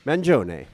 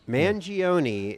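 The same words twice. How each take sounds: First: The name is pronounced with an Italian accent. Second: The name is pronounced with an American accent. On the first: "How do the Italians say it? They say" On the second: "is how Americans say it"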